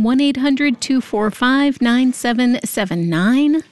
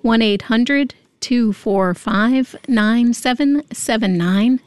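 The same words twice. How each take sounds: First: The number is said at a fast pace. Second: The number is said at a slow pace.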